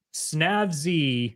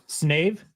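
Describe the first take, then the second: First: Snavzy said as "snav-zee", a short a like in "cat". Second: Snave said as "snayv", a long a like in "save". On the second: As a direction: correct it to Snave, rhyming with "wave". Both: Real, not acted. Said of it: "there is an E on the end".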